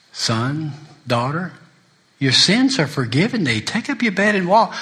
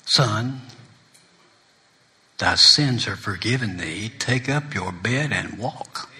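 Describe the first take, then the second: First: Preaching it out. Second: Soft, slow, lower forgiving words; tender Jesus voice. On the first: Preacher declaring forgiveness to the congregation, rising to a call. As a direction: proclaim the forgiveness to the room. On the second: Jesus forgiving the sinner, soft and slow. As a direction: hush it down like a gentle blessing. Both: Acted.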